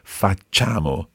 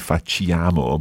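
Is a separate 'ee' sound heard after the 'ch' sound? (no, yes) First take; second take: no; yes. First: The 'ch' sound goes straight into 'a'. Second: An extra 'ee' sound follows the 'ch' sound. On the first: The speaker calls it right. "the I is just there to make the C soft. So you don't actually pronounce it" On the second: The speaker calls it wrong. "A lot of people say facciamo, but sì. It's not that"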